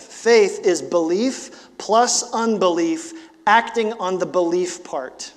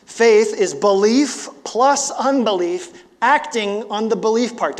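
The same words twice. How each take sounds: First: Slow, deliberate statement of the definition; measured first reading of the line. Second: Higher and louder, slow, leaning on "plus"; raised preacher's emphasis on "belief plus unbelief"; emphatic repeat. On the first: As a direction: lay it out word by word. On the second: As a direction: say it again and hammer "plus". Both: Shown as a demonstration. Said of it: "I'll say that again".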